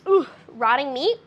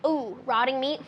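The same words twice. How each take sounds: First: It is said in a light, unserious tone. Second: It is said in a grave, serious tone. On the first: The claim sounds like a hoax. "if they weren't so serious in their tone" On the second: The claim sounds believable. "so serious in their tone"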